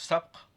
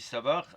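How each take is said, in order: First: The word is said with one syllable. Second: The word is said with two syllables. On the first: Every contest is forbidden except those named. "si on le prononce sapr" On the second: Betting is allowed only on the contests named. "si on dit sabar"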